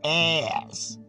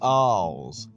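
First: It is said in a North American accent. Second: It is said in a British accent.

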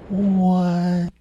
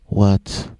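First: It is said slowly, as in slow motion. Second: It is said at normal speed.

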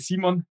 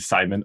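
First: The name is pronounced with German sounds. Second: The name is pronounced with English sounds. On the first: "in German, you would say Simon" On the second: "to my English-speaking friends, I say, call me Simon"

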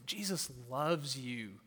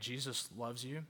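First: It is said in a gentle, warm tone. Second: It is said in a harsh, confrontational tone. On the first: The speaker loves and respects the listener. The speaker calls it right. "And no, I'm saying" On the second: The speaker does not seem to care about the listener. The speaker calls it wrong. "I'm not going to, hey"

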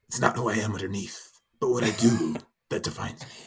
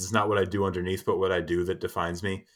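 First: It is said in an imitated Batman voice. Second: It is said in his normal voice.

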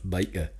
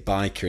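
First: The word is said with a Geordie accent. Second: The word is said without a Geordie accent. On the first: The speaker is a true local. "instead of biker" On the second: The speaker is not a true local. "you're not a true Geordie because you say biker"

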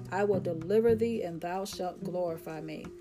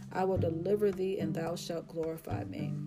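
No difference in how they are said.

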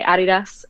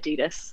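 First: The brand name is said the German way. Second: The brand name is said the American way. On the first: The speaker calls it right. "everyone that's German will say Adidas" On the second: The speaker calls it wrong. "everyone that's American will say Adidas"

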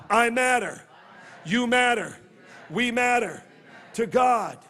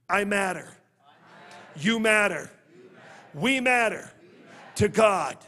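The two takes are said the same way.

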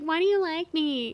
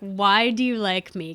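First: It sounds insecure and needy. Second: It sounds sincerely, honestly curious.

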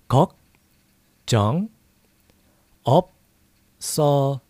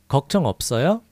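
First: It is said slowly. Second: It is said fast.

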